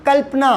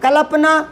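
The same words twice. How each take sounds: First: कल्पना as kəl-pa-na, the ल half and joined. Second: कल्पना as kə-lə-pa-na, every syllable full; full la, slow. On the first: Teacher to class, showing the correct half-ल कल्पना. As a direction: clip the ल in कल्पना, kəlp-na. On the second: Teacher to class, showing the wrong full-vowel कल्पना. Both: Shown as a demonstration. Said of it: "अलग-अलग आवाज़ नहीं आ रही क्या?".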